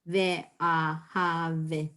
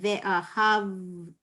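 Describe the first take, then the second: First: A short vowel sounds between v and t. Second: There is no vowel between v and t. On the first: The speaker calls it wrong. "I'm not saying ve'ahavta" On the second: The speaker calls it right. "I'm saying ve'ahavta"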